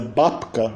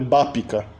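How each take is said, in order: First: The p directly meets the k, no vowel between. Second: An extra vowel is inserted between p and k. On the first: This is the attempted form ending a syllable in a stop. "se você tentar fizer Bapka" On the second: This is how speakers actually realize it. "a gente vai ter Bápica"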